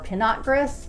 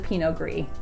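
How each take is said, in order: First: The final consonants of the words are pronounced. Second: The final consonants of the words are silent. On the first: The speaker calls it wrong. "Instead of calling it the Pinot Gris" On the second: The speaker calls it right. "the consonant is silent at the end of both words"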